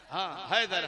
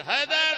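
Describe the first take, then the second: First: Said in the usual way. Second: A loud, high call of the name. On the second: Real, not acted. Preacher calls to a boy in the crowd, loud and high.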